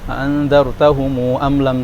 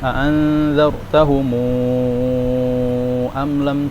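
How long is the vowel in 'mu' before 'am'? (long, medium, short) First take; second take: short; long. First: The final 'mu' vowel is held very briefly. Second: The final 'mu' vowel is held very long. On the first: "qasrul mad" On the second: "Isba itu enam berarti"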